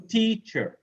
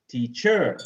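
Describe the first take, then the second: First: "teacher" as TEA-cher, high then falling; stress on first syllable. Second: "teacher" as tea-CHER, weight on the last syllable; wrong second-syllable stress. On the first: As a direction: hit TEA in "teacher", let -cher drop. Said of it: "the first one". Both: Shown as a demonstration.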